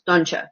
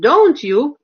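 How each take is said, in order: First: The two words blend quickly into one sound. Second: The two words are said clearly and separately.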